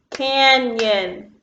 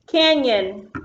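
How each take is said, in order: First: "Canyon" stretched into two beats, can-yon; split into syllables. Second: Said in the usual way. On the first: Shown as a demonstration. Teacher clapping syllables with pupils, "Canyon" in two separate beats. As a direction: clap out "Canyon", one syllable at a time. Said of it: "clap with me on the syllables".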